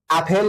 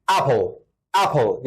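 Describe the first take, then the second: First: اپل said the Persian way, flat, as the wrong example; اپل in the Persian loanword way, marked as wrong. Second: اپل said as English apple, the right way; teacher demonstrating the correct English اپل; English pronunciation. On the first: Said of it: "اپل نیست". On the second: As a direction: model اپل the way English speakers say it. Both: Shown as a demonstration.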